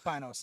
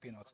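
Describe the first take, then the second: First: The name is said the American way. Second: The name is said the Ecuadorian way.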